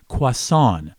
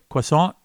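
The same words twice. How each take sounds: First: The word ends without any T sound. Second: The word ends with an audible T sound. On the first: The speaker calls it right. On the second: The speaker calls it wrong.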